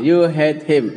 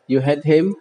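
First: The voice falls at the end like a statement. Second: The voice rises at the end like a question. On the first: It states a fact. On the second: It asks a question.

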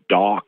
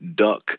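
First: The vowel is an open back 'ah' sound. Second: The vowel is a more central 'uh' sound. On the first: "some people say it's almost more like, you know, dock" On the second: "some people say it almost sounds a little bit more like duck"

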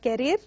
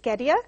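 First: The final R is sounded. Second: The final R is silent. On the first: The speaker calls it wrong. "it is not carrier" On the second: The speaker calls it right. "it is carrier"

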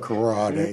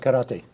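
First: The word is said with an American pronunciation. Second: The word is said with a Japanese pronunciation. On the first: "Americans go karate" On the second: "In Japanese, it's karate"

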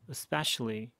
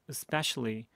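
No difference in how they are said.

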